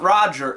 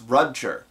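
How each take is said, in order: First: The first vowel sounds like in 'rod'. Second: The first vowel sounds like in 'rud'. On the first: The speaker calls it wrong. "No, it's not Roger" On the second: The speaker calls it right. "It's Rudger"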